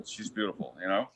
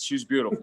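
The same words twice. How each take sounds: First: Dreamy hush. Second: Said in the usual way. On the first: Shown as a demonstration.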